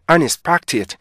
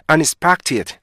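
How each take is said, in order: No difference in how they are said.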